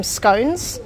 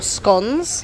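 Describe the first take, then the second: First: "scones" rhyming with cones; "scones" with the vowel of "stone"; long-o scones. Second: "scones" rhyming with cons; "scones" with the vowel of "gone"; short-o scones. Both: Shown as a demonstration. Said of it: "however you say it".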